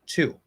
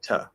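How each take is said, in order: First: The vowel is a full, clear oo sound. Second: The vowel is a reduced, short uh sound. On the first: "fully enunciated version of the word" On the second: "it's most common to reduce it from U to uh"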